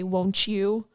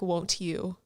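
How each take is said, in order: First: The t blends into you, like wonchu. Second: The t is crisp and separate from you. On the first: "I kept messing it up" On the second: "I'll enunciate like my consonants"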